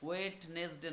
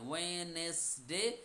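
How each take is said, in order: First: A d-like sound is heard in the middle. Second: No d sound is heard in the middle. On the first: The speaker calls it wrong. "নয়" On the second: The speaker calls it right. "ওটাকে silent করবেন"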